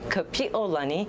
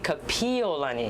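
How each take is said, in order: First: A glottal catch separates 'pi' and 'o'. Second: 'Pi' and 'o' run together without a catch. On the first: The name refers to the arch of heaven. The speaker calls it right. "we need to say her name correctly" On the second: The name suggests extinguishing something. The speaker calls it wrong. "Please do not say"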